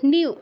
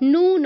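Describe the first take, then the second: First: A y-glide comes before the long u vowel. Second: No y-glide comes before the u vowel. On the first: The speaker calls it right. "এটার উচ্চারণটা নিউ" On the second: The speaker calls it wrong. "নু নয়"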